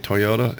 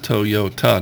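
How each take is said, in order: First: It is said with an American pronunciation. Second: It is said with a Japanese pronunciation. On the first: This is how people say it locally. "Just like we say Toyota" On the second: This is how it is said in its original language. "it's Toyota"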